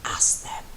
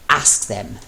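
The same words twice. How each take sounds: First: An unvoiced whisper into the ear. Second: A firmer, louder order; commanding. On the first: Mello whispering into his husband's ear, intimate. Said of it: "whispering hotly into his ear". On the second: Acted. Mello ordering his husband, louder commanding. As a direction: command it clearly. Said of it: "Mello commanded more loudly".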